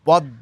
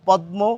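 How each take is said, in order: First: The m is silent and d is doubled. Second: The m sound is clearly pronounced after d. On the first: "কিন্তু পদ্ম কেন বলছি? ... ম ফলা vanish হয়ে যায়" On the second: "আমাদের তো বলা উচিত ছিল পদ্ম"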